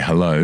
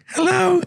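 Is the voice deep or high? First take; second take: deep; high. First: It is said in a deep voice. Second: It is said in a high voice.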